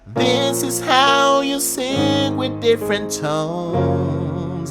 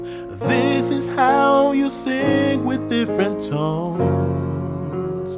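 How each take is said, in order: First: The voice sounds bright and nasal, with raised larynx. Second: The voice sounds balanced and neutral, neither deep nor nasal. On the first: "you can sing with nasal um, tone" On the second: "which is the neutral level"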